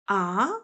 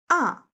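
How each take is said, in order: First: The pitch rises from middle to high. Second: The pitch falls sharply from high to low. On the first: The speaker is surprised. "what? Surprising sound" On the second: The speaker is angry. "falling down sharply, ... angry sound"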